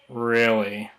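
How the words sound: The pitch goes low at the end. The speaker is being sarcastic. "if we're sarcastic, we might go lower"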